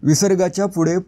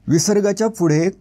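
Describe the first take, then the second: No difference in how they are said.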